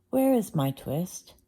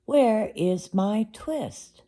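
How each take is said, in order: First: Said in the usual way. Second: Slow, higher, drawn-out plea; slow insistent question. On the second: Acted. Tailor asking Simpkin a second time, slow and pleading. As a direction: stretch each word, pleading. Tailor asks the cat again.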